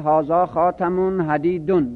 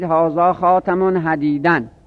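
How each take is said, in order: First: The last word ends with the vowel -un. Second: The last word ends with the vowel -an. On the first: The last word stands in apposition to the noun before it. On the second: The last word is a specifier.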